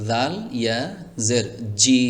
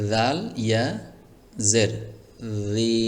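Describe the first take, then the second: First: The last syllable starts with a 'j' sound. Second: The last syllable starts with a soft 'th' sound. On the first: The speaker calls it wrong. "তাহলে বড় একটি ভুল হয়ে যেত আমার। এই জাল হরফটির জায়গায় জিম উচ্চারণ করে ফেলতাম" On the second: The speaker calls it right. "খেয়াল করুন কিভাবে পড়ছি"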